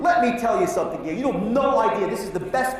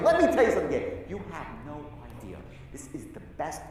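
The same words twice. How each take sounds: First: It is spoken in a normal full voice. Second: It is spoken in a quiet whisper. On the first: "That's one way to say" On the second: "The second, and I whisper. Most powerful thing is a whisper"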